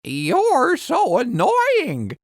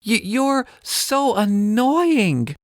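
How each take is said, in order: First: High, slow parrot echo; parrot copying. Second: Put-on high, slow cross girl voice; a touch of childish annoyance, slowly; mild mock anger. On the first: Acted. Parrot copying angry Ella, high parrot voice. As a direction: mimic her annoyance like a parrot. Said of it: "Parrot repeats". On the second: Ella fed up with Parrot, mildly angry girl. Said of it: "Ella says angrily".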